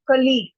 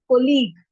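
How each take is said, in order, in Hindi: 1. पहले अक्षर में 'uh' स्वर है। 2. पहले अक्षर में 'o' स्वर है। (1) "क का साउंड आता है" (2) "एक तो या तो कोलीग कहते हैं"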